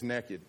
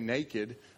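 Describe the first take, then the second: First: The first vowel is short, like 'neck'. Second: The first vowel is long, like 'nay'. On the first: This is how people in North Carolina say it. "you can spell that N-E-C-K-E-D" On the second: This is how people elsewhere say it. "Wherever you're from, they may say naked"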